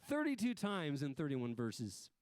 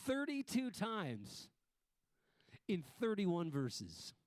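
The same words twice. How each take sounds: First: Said in the usual way. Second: Détache chaque mot, lentement; slow and emphatic. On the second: Shown as a demonstration.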